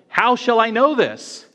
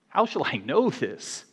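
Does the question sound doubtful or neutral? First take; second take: neutral; doubtful. First: The question is read in a plain neutral tone. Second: The question is said in a doubting, skeptical tone. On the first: The speaker calls it wrong. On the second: The speaker calls it right.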